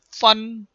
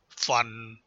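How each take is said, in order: First: The pitch stays high and level. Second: The pitch falls low.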